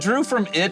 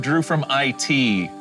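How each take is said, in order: First: The last part is said as one word. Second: The last part is spelled out as two letters. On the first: The name refers to the movie It. "Maybe he was in the movie It" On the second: The name refers to information technology. "Drew from Information Technology"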